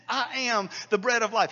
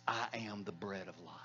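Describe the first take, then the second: First: "I am the bread of life." declared louder, stress on "bread"; bold proclamation. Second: Hushed, much quieter, lower quoting of Jesus' words "I am the bread of life."; soft reverent quote. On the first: Quoting Jesus, repeated boldly. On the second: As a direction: say "I am the bread of life." low and quiet, almost to yourself. Quoting Jesus, then repeating louder. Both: Acted.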